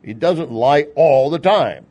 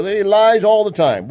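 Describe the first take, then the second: First: Slow, deliberate, leaning on "time"; firm correction. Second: "lies" pushed high, loud and slow, mocking; mocking the media. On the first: Shown as a demonstration. Correcting the media's claim, slow and emphatic. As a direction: set the record straight, "time" falling firmly. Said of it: "which is wrong". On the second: Mocking the media's claim, "lies" drawn out high and loud. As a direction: ham up the outraged accusation, dragging "lies". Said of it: "the mainstream media says that Trump lies".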